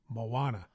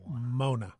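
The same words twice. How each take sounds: First: The name has three syllables, Mo-a-na. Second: The name has two syllables, Mo-na. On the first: The speaker calls it right. "It's Moana" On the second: The speaker calls it wrong. "not Moana. Mona"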